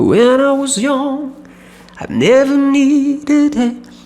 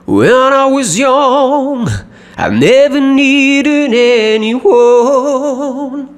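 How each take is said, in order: First: It is soft and inward, like private thought. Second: It is projected outward, like telling a friend. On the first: The person is thinking it to himself. "Carácter eh, reflexivo sería esto" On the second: The person is telling it to someone else. "Estoy proyectando más mi voz"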